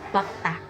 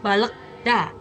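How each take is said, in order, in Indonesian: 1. L-nya dihilangkan, jadi terdengar 'bakta'. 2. Setiap huruf yang tertulis dibunyikan, termasuk L. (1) "tapi dibacanya bakta" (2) "tulisannya balekda"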